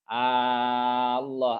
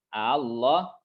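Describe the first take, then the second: First: The opening vowel is drawn out long. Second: The second hamza is softly eased, not lengthened. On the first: "ibdal dipanjangkan" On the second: "tasyil hamzah hamzah washolnya ditasyil"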